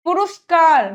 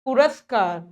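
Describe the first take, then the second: First: "पुरस्कार" as pu-rus-kaar; wrong vowel. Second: Said in the usual way. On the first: Shown as a demonstration. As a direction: put u after r in "पुरस्कार". ("पुरस्कार" को पुरुस्कार जैसा) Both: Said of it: "नहीं".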